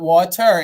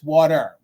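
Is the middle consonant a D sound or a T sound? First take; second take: T sound; D sound. First: The middle consonant is a clear T sound. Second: The middle consonant sounds like a D. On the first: "It's not water" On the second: "water with a D"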